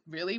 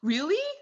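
First: It sounds skeptical and doubting. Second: It sounds happy and excited.

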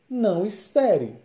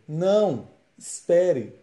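First: There is no pause between the words. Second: There is a pause after the first word. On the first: The listener is told not to wait. "sem a vírgula, a frase fica" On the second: The listener is told to wait. "com a vírgula fica"

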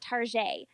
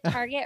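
First: The word ends in a soft zh-ay sound. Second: The word ends with a hard t sound. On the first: "or you can pronounce it Tarjay" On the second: "You can pronounce it Target"

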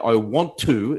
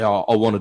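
First: Want to is said as two clear words. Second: Want to is run together as wanna. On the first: The speaker calls it right. "you start enunciating properly" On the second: The speaker calls it wrong. "it's normal slang to say"

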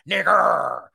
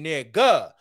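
First: The word ends in a growled 'er' sound. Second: The word ends in an open 'ah' sound. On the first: "with the E-R. The E-R is growling. It's aggressive"

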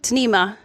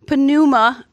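First: The word starts with a quick T sound. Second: The word starts without a quick T sound. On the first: The speaker calls it right. "it's really pronounced more like tnema. It's like a quick T sort of a sound at the beginning" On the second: The speaker calls it wrong. "it looks like pneuma"

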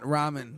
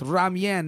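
First: No y-glide follows the m sound. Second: A y-glide follows the m sound. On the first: The speaker calls it wrong. "not ramen" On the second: The speaker calls it right. "it's ramyeon"

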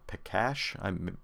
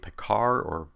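First: The name is pronounced in the Czech way. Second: The name is pronounced in an anglicized way.

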